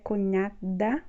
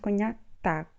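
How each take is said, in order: First: The last syllable has no T sound. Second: The last syllable has a T sound. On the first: The speaker calls it wrong. "não é cognada, como no português" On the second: The speaker calls it right. "com T"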